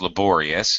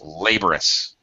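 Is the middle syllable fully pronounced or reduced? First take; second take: fully pronounced; reduced. First: The middle syllable is full and stressed. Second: The middle syllable is reduced; first syllable stressed. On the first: The speaker calls it right. "unreduced, it's laborious" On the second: The speaker calls it wrong. "Reduced, laborious. It's re- just really fast, and it's uh, reduced to a schwa sound"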